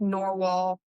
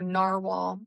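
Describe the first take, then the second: First: Narwhal said as "NOR-wall"; first syllable of narwhal rhymes with "for"; first pronunciation variant. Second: Narwhal said as "NAR-wall"; first syllable of narwhal rhymes with "car"; alternative pronunciation. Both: Shown as a demonstration. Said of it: "however you say it".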